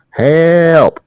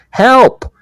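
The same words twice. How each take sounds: First: High, drawn-out mock "Help"; slow shout. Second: High, loud mock cry for help; shout for help. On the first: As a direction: stretch out the cry so passers-by hear it. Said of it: "nervous that I'm gonna m-, mumble". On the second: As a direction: shout out the window to a jogger, pretend. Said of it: "I'm gonna shout".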